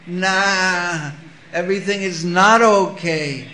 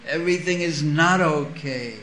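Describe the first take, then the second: First: Bleating goat. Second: Said in the usual way. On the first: Retold or imitated. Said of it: "the one sound that a goat can make". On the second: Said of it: "What is the one sound".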